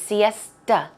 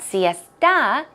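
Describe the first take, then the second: First: The final vowel is a reduced 'uh' sound. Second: The final vowel is a full 'ah' sound. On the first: The speaker calls it right. "it's more of a uh, U sound" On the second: The speaker calls it wrong. "it's not siesta"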